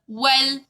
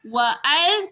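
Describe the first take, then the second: First: Wa runs straight into l without a break. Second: A glottal stop separates wa from al. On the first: The speaker calls it right. "kita baca wal" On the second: The speaker calls it wrong. "kita tak baca wa'al"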